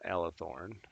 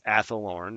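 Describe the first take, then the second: First: The name begins with an 'el' sound. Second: The name begins with an 'ath' sound. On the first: The speaker calls it wrong. "not Elethorn" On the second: The speaker calls it right. "it's Athelorn"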